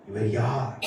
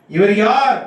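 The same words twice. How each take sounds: First: Low, soft rhetorical question; hushed question. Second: Raised, ringing rhetorical question; loud proclamation. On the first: Preacher asks the congregation who He is, hushed. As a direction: ask it quietly, letting it drop. Question posed quietly, then proclaimed. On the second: Preacher challenges the congregation with who He is, loudly proclaimed. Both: Real, not acted.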